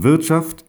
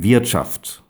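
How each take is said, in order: First: Wirtschaft with a clean, open standard German vowel. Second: Wirtschaft with a throaty vowel between E and Ä, said slowly; throaty Westphalian vowel. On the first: Showing listeners the standard Wirtschaft he does not use. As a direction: say Wirtschaft the way the radio editors wanted it. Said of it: "Ich sage nicht". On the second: Showing listeners his own Westphalian Wirtschaft, throaty and slow. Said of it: "Mit einem kehligen E bis Ä". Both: Shown as a demonstration.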